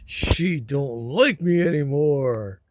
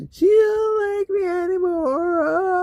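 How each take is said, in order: First: Slow, drawn-out mock complaint; whiny complaining. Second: Very high, loud, drawn-out fake crying; mock whiny wail. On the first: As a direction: whine it slowly, without wailing. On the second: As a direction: wail it slowly like a hammed-up whiner. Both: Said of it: "This is the whiny, complaining".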